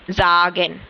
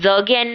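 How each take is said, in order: First: The first vowel is a long a. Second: The first vowel is a short a. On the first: The speaker calls it right. "ये आ की साउंड दे रहा है" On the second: The speaker calls it wrong. "जगेन नहीं है ये"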